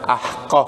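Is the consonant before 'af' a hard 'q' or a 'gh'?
q. The word is said with a hard 'q' sound.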